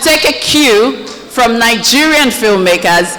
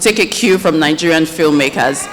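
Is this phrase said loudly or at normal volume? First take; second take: loud; normal. First: It is said louder than normal speech. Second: It is said at a normal speaking volume.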